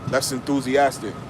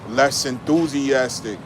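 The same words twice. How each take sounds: First: The phrase is said at a normal pace. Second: The phrase is said slowly. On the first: The speaker calls it right. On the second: The speaker calls it wrong.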